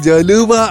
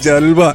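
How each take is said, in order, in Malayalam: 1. l ഉം w ഉം നടുവിൽ ഒരു അധിക u സ്വരാക്ഷരം വേർതിരിക്കുന്നു. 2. l ഉം w ഉം സ്വരാക്ഷരമില്ലാതെ ചേരുന്നു.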